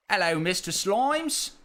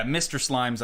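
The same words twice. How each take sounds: First: Higher, broad mock British greeting; exaggerated put-on British hello; British accent. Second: Said in the usual way. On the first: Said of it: "say in a British accent".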